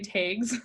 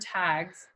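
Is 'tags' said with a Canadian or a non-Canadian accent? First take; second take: Canadian; non-Canadian. First: The word has a Canadian-accented vowel. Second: The word has a non-Canadian vowel. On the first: "you can hear my Canadianness coming out because I say tags" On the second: "instead of tags"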